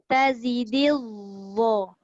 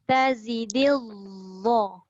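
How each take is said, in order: The two takes are said the same way.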